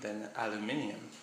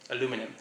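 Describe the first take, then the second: First: The word is said as aluminium. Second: The word is said as aluminum. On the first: "If it's aluminium" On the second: "that's how I say it"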